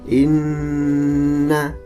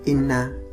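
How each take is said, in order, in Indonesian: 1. Bunyi sengau n dibaca panjang. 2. Bunyi sengau n dibaca pendek. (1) "Cara membacanya ditahan" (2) "tidak cukup inna, harus ditahan"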